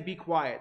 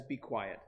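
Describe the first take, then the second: First: Said in the usual way. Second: Soft, lower, gentle hush; a polite request to keep it down; mild shushing; too nice. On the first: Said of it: "They aren't just saying". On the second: Retold or imitated. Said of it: "that's just too, too, way too nice".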